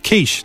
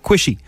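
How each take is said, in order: First: The word ends with a 'sh' sound. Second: The word ends with an added 'ee' sound. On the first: The speaker calls it right. "it's quiche" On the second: The speaker calls it wrong. "not quishy"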